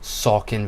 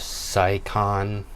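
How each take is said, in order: First: It is said the way local people say it. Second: It is said the way outsiders say it. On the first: The speaker is from the area. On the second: The speaker is not from the area.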